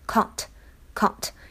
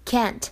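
First: It is said with a British accent. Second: It is said with an American accent. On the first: "如果英式的话呢，读的是can't" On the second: "这是美式的发音"

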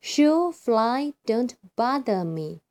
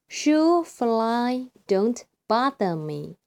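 First: It is said faster. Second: It is said slowly.

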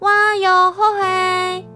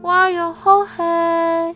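First: It is shouted loudly and confidently. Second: It is said hesitantly and weakly.

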